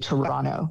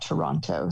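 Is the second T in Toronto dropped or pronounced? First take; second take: dropped; pronounced. First: The second T sound is dropped. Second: The second T sound is clearly pronounced. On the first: This is how locals say it. The speaker calls it right. "Torontonians say Toronto" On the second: This marks the speaker as an outsider. The speaker calls it wrong. "not Toronto. ... don't pronounce that last T"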